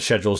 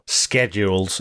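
First: It is said in a British accent. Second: It is said in an American accent.

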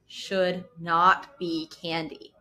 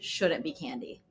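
First: It is spoken slowly and deliberately. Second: It is spoken at a normal pace.

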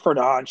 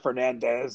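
First: The name is said with a Portuguese pronunciation. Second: The name is said with an English pronunciation. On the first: The speaker calls it right. "It's like a Fernandes with like a D-C-S-H something or other" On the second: The speaker calls it wrong. "It's not a Fernandez"

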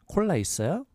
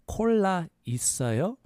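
First: It is said fast. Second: It is said slowly.

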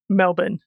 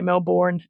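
First: Melbourne is said in an Australian accent. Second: Melbourne is said in an American accent. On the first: The speaker calls it right. "it is Melbourne" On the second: The speaker calls it wrong. "Americans say Melbourne and it annoys us all"

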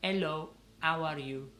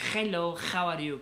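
First: It has an Italian accent, dropping the H. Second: It has a Spanish accent with a harsh H.

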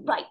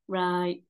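First: It is said in a brisk, energetic way. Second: It is said in a tired, flat way.

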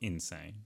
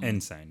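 First: The word starts with a plain 'in' sound. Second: The word starts like the letter N. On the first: It is the ordinary word for crazy. The speaker calls it wrong. "not insane" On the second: It is the game's title, spelled with the letter N. The speaker calls it right.

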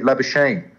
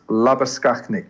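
First: The name has an anglicized Australian pronunciation. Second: The name has an Afrikaans pronunciation. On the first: The speaker calls it wrong. "they can't say Labuschagne. They say Labuschagne" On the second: The speaker calls it right. "I'm going to say it like that because he's from the Free State"

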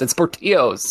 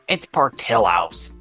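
First: The double L is said like a y. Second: The double L is said like an l. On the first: This is the Southwestern, Spanish-style way of saying it. "I live in the Southwest and I'm just, if there's two L's, it's Portillo's" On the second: This is how Midwesterners say it. "the people from the Midwest that are here in Arizona, they hate it when I say Portillo's. They're like, what?"

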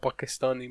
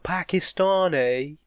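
First: It is said the way a native speaker says it. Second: It is said the way English people say it. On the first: The speaker calls it right. "No, I'm a Pakistani, my guy" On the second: The speaker calls it wrong. "when English people say it, because they can't pronounce the word"

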